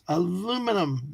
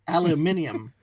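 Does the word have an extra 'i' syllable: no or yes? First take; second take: no; yes. First: It is said without an extra syllable before the end. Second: It is said with an extra syllable before the end. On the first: The speaker calls it right. "aluminum, not aluminium" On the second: The speaker calls it wrong. "there's not an extra I in there"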